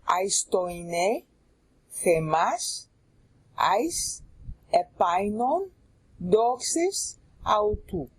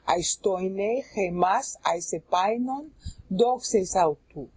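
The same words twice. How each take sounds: First: The phrase is read at a slower pace. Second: The phrase is read at a faster pace.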